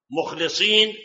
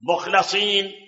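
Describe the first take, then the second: First: "مخلصين" with i on the lam: mukh-li-seen; mukhlisin with kasra. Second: "مخلصين" with a on the lam: mukh-la-seen; mukhlasin with fatha. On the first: Sheikh contrasting readings, "مخلصين" with kasra. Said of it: "بكسر اللام". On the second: Sheikh contrasting readings, "مخلصين" with fatha. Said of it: "بفتح اللام". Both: Shown as a demonstration.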